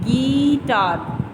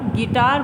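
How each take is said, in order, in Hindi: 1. पहला स्वर लंबा खींचकर बोला जाता है। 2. पहला स्वर छोटा रखा जाता है। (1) "हमने गीटार ऐसे नहीं बोला" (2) "उसमें ई की जो मात्रा है वो कम आई"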